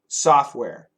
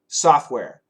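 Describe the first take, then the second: First: It is said fast with the T sound dropped. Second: The same.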